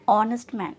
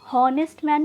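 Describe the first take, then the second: First: The first word begins directly with a vowel. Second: The first word begins with an h sound. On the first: The speaker calls it right. "ऑ बोलते हैं" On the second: The speaker calls it wrong. "हॉनेस्ट man नहीं बोलते"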